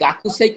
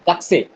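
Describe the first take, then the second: First: The vowel after 'k' is fully pronounced. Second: The vowel after 'k' is dropped. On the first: The speaker calls it wrong. "গাকুসেই কিন্তু জাপানিজরা বলে না" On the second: The speaker calls it right. "মানে সেটা উচ্চারণই করবেন না"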